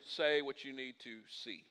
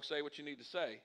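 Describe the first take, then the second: First: "see" set apart at the end; stress on SEE. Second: Said in the usual way. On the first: Shown as a demonstration. Pastor correcting a song title, stress on "see". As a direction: land deliberately on "see". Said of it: "I'm saying". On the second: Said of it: "not talking about a singer's song".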